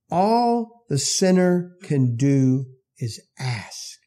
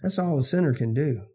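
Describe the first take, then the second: First: All drawn out slow and heavy; stress on All. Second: Said in the usual way. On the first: Shown as a demonstration. Preacher repeating his point, slow and weighty on All. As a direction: lean hard on All, then slow down.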